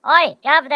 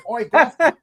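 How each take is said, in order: First: Loud, higher, mock British Cockney call; Nottingham accent. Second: Much higher, louder laughing mock Cockney; British imitation. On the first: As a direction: ham up a Nottingham bloke shouting. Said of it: "sounded like he was fr- you know, from Nottingham". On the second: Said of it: "a pretty good Brit, uh, imitation".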